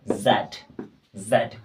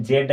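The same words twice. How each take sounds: First: जेड said as the proper British name of the letter Z, zed; carefully pronounced जेड as the right version; correct way to say it. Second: जेड said the way some people wrongly say the letter Z; deliberately mispronounced जेड for contrast. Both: Shown as a demonstration. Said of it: "जेड नहीं".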